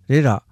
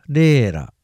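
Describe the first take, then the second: First: The first vowel is short. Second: The first vowel is drawn out long.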